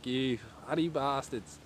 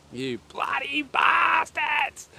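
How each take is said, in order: First: Said in the usual way. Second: High, slow, shouted curse; drawn-out mock outrage. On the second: Real, not acted. Streamer yelling at chat for spamming, slow high mock howl. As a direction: stretch it out in a loud mock howl.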